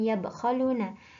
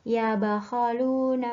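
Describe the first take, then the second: First: The b is followed by no vowel. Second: The b is followed by an a vowel. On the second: "dapat dibaca fathah"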